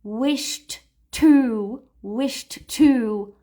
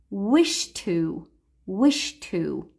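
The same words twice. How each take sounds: First: "wished to" with the D sounded before the T; linked wished to. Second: "wish to" with no D, run straight into the T; D dropped. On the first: Teacher showing learners the awkward "wished to". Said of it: "So instead of saying". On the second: Teacher showing learners "wish to" linked as one word. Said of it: "ignore the D and just say the T". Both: Shown as a demonstration.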